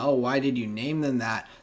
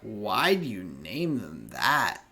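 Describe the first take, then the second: First: It is asked in a light, casual tone. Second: It is asked in a sharp, accusatory tone.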